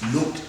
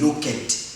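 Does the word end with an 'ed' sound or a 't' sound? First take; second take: t; ed. First: The ending is pronounced as a 't' sound. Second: The ending is pronounced as a separate 'ed' sound. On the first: The speaker calls it right. "This ed becomes et in terms of pronunciation" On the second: The speaker calls it wrong. "Don't say looked"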